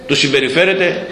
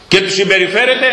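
First: Said in the usual way. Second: Συμπεριφέρεται lifted high with a rising tune; stressed. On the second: Shown as a demonstration. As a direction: push συμπεριφέρεται up and let it rise. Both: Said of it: "με λίγη περιφρόνηση".

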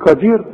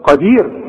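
First: "قدير" with a front K sound; wrong K for Qaf. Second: "قدير" with a deep back Q; correct deep Qaf. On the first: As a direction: turn the Qaf of "قدير" into a Kaf. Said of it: "ما تقولش بقى". ("قدير" بكاف بدل القاف) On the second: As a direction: start "قدير" far back in the throat. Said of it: "واخد بالك؟". ("قدير" بقاف صحيحة) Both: Shown as a demonstration.

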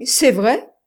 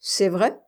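First: Loud, high, disbelieving question; incredulous. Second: Understated surprise, rising question; mildly astonished. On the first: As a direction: ask in open disbelief, pitched up. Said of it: "dit l'autre, incrédule". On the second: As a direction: ask with a touch of astonishment. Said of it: "demanda-t-il étonné". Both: A narrator's reading.

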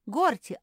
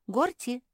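First: «Горти» громче и с падением на конце; позвать «Горти» ещё раз, настойчивее; зов громче. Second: Зов. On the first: (второй, более громкий оклик «Горти») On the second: Зовёт Горти дважды. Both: Acted.

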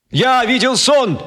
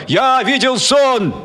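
First: Slow, high proclaiming cry; cried out. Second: Crowd roaring. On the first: Speaker crying out to the crowd, slow high proclamation. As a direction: ring it out like an orator. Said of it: "вдруг крикнул Мартин Кеннинг". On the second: Crowd roaring the slogan back at the speaker. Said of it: "орала и ревела". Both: Acted.

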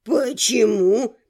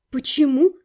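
First: Put-on low, slow puzzled old man. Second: Mildly sullen question. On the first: Rector hears her refusal, sincerely puzzled. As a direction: draw the question out in sincere bewilderment. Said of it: "с искренним недоумением". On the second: Heroine questions the old man, sullen. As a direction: ask it with a touch of gloom, voice rising. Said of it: "хмуро спросила я". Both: A narrator's reading.

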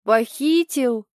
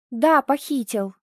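First: Slow, incredulous "Похитил?" with falling tune; mock astonishment; surprised question. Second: "Да, похитил!" growled, stress on Да; mother growling back; growled reply. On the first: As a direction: drag out "Похитил?" in disbelief. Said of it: "Толик изумлённо изогнул брови". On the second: Acted. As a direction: bite out "Да" firmly. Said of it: "рыкнула я".

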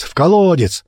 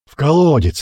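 First: Even higher, more urgent shout; the mob's cry picked up, higher shout; louder crowd shout. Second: Higher demanding shout; first cry of the mob, shouting; crowd shout. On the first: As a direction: another voice joins, higher. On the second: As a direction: call out from the crowd. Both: Acted. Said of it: "раздались крики со всех сторон".

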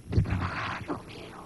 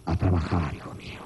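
First: Breathless whisper, much lower and softer; a tipsy dad mumbling an excuse in a whisper; a drunk father coming home with his tie askew, whispering an excuse to his son. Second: Much lower, fading into nothing; a tired dad groaning his way out the door; a father telling his son he's off to work; weary father. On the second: Father leaving with a strained face. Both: Retold or imitated.

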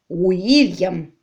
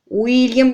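First: Whispered name, falling; hushed insistence. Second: Loud final ruling; emphatic insistence. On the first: Baronet hissing the name at his wife, whispered. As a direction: breathe the name as a secret. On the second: Baronet overruling his wife, loud. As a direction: pronounce the name as final. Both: A narrator's reading.

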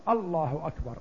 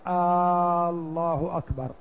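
First: الله أكبر firm, even, falling at the end; certain takbir. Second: الله أكبر led by a drawn-out آه; wrong hamza stretch; questioning takbir. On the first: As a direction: say it with conviction. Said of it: "عن يقين وجزم". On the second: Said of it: "إذا قال". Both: Shown as a demonstration.

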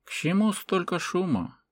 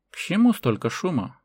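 First: High, unhurried question at normal volume; composed old man, lightly voiced; calm speech. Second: High, firmer composed question; lightly voiced old man, raised a little; calm repeated question. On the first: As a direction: ask it calmly amid the uproar. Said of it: "спокойная речь". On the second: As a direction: repeat it calmly, with more projection. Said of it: "повторил старик". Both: A narrator's reading.

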